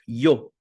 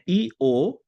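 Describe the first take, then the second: First: It is said as one single gliding syllable. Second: It is split into two separate syllables. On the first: The speaker calls it right. "é um som de i curto que segue um som de o" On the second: The speaker calls it wrong. "não é i, o, né? Não são duas sílabas"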